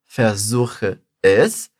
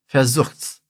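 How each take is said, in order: First: The verb and pronoun are two full syllables apart. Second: The pronoun shrinks to an s on the verb. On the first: "ao invés de eu falar versuche es" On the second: "a gente fala versuch's"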